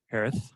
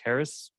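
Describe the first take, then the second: First: The final s is lisped, like th. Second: The final s is a plain hissing sound. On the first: "but with, with lisp" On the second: "pronounced like Harris"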